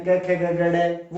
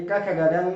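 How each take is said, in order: First: "क ख ग घ ड़" said slowly, ending on a retroflex flapped ड़; wrong ड़ pronunciation. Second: "क ख ग घ ङ" ending on the nasal ङ, not ड़; correct ङ pronunciation. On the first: Teacher showing the class the wrong "ड़" at the end. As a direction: spell out "क ख ग घ ड़" slowly, flapping the last ड़. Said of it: "वो ड़ है ही नहीं". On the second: Teacher showing the class the correct nasal "ङ". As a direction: spell out "क ख ग घ ङ" with a nasal ङ at the end. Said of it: "ड़ है ही नहीं". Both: Shown as a demonstration.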